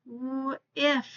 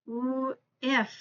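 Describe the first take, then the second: No difference in how they are said.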